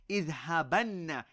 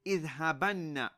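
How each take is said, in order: Both takes have the same delivery.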